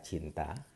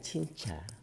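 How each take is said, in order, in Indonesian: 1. Konsonan di tengah adalah bunyi 't' biasa. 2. Konsonan di tengah adalah bunyi 'ch'. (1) "mengucapkan kata cinta" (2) "dengan cinca"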